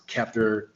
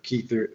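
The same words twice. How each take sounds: First: Kether in its first variant, short e; first pronunciation variant. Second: Kether in its alternate variant, long ee; second pronunciation variant. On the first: Citing how some say the crown's name, Kether in first variant. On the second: Offering another way to say the crown's name, Kether as KEE-ther. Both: Shown as a demonstration. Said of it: "there's different pronunciations of it".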